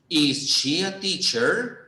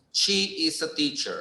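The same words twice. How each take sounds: First: "Is she a teacher?" slow, rising on "teacher"; question tune. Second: "She is a teacher" with a falling end on "teacher"; statement tune. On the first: Teacher showing students the question form. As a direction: ask "Is she a teacher?" slowly, doubtful, lifting at the end. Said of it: "así preguntamos". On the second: Teacher showing students the statement form. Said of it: "Cuando afirmamos decimos". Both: Shown as a demonstration.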